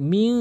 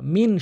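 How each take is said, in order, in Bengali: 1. শেষের ন লুকানো এবং নাসিকাযুক্ত। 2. শেষের ন স্পষ্ট ন হিসেবে উচ্চারিত হয়। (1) "কিন্তু বলতে হবে কি মিং মিং, এখানে কিন্তু নাকের ভিতর নিতে হবে" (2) "অধিকাংশ লোক কী বলে মিন শাররিল"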